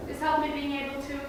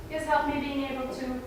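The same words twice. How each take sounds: The two takes are said the same way.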